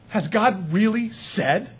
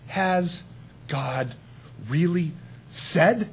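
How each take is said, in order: First: Slow, drawn-out doubting question; sly serpent. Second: Slow, insinuating serpent question; sly serpent. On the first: Enemy questioning God's word again, slow and sly. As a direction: plant the doubt slowly. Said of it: "The enemy goes". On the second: Preacher voicing the serpent questioning God's word, slow and sly. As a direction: drag out the doubt, lightly sly. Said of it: "and he says". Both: Retold or imitated.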